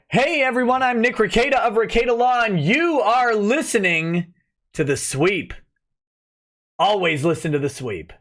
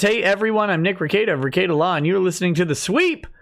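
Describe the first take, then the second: First: Big intro voice, stretching the last phrase; improved show intro. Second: Said in the usual way. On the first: Shown as a demonstration. Streamer recording the intro promised to a viewer, hyped announcer. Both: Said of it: "let me do one better".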